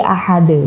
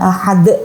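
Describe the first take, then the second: First: The final d is followed by a short e-like vowel. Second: The final d is released with a sharp bounce. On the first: "tidak dipantulkan ya, tetapi dengan irama ada e-nya" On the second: "bukan ahad"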